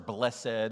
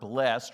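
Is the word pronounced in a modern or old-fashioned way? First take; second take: old-fashioned; modern. First: The word has an old-fashioned pronunciation. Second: The word has its modern pronunciation.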